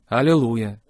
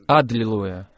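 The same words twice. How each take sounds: First: It is said in a weak, resigned tone. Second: It is said in a strong, triumphant tone. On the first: Accepting defeat and sickness. The speaker calls it wrong. "Нет, это не аллилуйя" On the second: Declaring victory with faith. The speaker calls it right. "Это аллилуйя"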